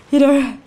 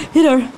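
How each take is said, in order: Both takes have the same delivery.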